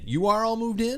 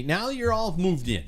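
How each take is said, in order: First: "are" pushed high, question rising at the end; "You are all moved in?" with "are" pitched high and the end rising; stress on ARE, questioning. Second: Said in the usual way. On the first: Real, not acted. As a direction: lean on "are" and lift the whole question.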